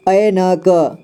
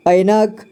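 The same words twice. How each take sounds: First: ऐनक split as ऐ, न, क; syllable by syllable. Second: Said in the usual way. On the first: Shown as a demonstration. Teacher showing learners ऐनक, sounded out in parts. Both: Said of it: "इसे पढ़ेंगे".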